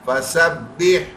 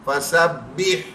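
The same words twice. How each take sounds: Both takes have the same delivery.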